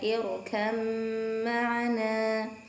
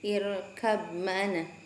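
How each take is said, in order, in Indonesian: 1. Kata pertama diakhiri dengan bunyi m. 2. Kata pertama diakhiri dengan bunyi b. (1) "dibacanya irkam ma'ana" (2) "lafaz irkab ma'ana"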